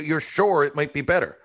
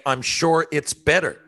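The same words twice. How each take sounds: First: Sure leaned on, higher and incredulous; stress on sure. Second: "I'm sure it's better" said slowly, higher and firm; firm correction. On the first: Customer mocking salesman's phrase with "sure" stressed. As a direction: land hard on "sure" in disbelief. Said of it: "What do you mean". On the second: Customer demanding salesman say "I'm sure it's better" firmly. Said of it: "I need to hear you say". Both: Shown as a demonstration.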